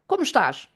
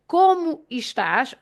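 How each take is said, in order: First: The phrase is spoken quickly, the e nearly dropped. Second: The phrase is spoken at a normal, careful pace.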